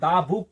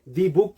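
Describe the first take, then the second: First: 'The' is said with a short 'thuh' vowel. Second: 'The' is said with a long 'thee' vowel. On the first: The speaker calls it right. "हम लोग दा book क्यों read करेंगे" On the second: The speaker calls it wrong. "दी book क्यों नहीं करेंगे"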